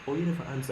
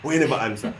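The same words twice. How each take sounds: First: It is said in a mild tone. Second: It is said in a harsh tone.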